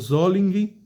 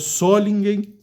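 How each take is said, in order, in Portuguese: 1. O nome é dito com sons alemães. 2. O nome é dito com sons do português brasileiro. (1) "a pronúncia alemã eu creio que seja" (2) "que aqui a gente chama Solingen"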